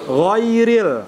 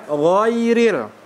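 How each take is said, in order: The two takes are said the same way.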